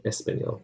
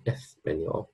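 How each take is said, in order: First: "español" with a plain s, Latin American style; Latin American accent. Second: "español" with a Castilian s, as in Spain; Spain accent. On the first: Teacher contrasts regions, "español" in a Latin American accent. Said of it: "In Latin American, we say". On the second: Teacher contrasts regions, "español" in a Spain accent. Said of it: "but in Spain, Spanish, we say". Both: Shown as a demonstration.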